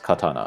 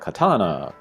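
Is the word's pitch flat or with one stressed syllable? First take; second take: flat; stressed. First: The pitch stays flat, dropping slightly at the end. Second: One syllable stands out with stress and pitch. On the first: The speaker calls it right. "it's pretty flat. Uh, if anything, it kind of um, drops off at the end" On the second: The speaker calls it wrong. "maybe some people would say like katana"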